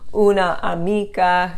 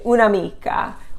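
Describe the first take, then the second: First: The final A of una is fully pronounced. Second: The final A is dropped and the words run together. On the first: The speaker calls it wrong. "Instead of saying una amica" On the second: The speaker calls it right. "you say un'amica"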